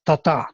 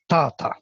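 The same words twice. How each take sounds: First: "ta-ta" with the second ta stressed; weak first ta, hit the second; iambic ta-ta. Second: "ta-ta" with the first ta stressed, second ta unaccented; trochaic ta-ta. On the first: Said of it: "the second one is, uh, stressed". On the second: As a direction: hit the first ta, drop the second. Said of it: "Trochaic means opposite". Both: Shown as a demonstration.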